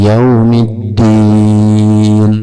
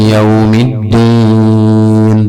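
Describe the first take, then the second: The two takes are said the same way.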